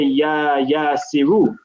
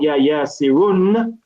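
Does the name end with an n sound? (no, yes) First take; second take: no; yes. First: The name ends on a vowel, without n. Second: The name ends with an n sound. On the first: The speaker calls it right. "we say" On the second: The speaker calls it wrong. "instead of saying"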